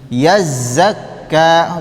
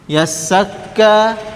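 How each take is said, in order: First: The middle consonant is a buzzing z sound. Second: The middle consonant is a hissing s sound.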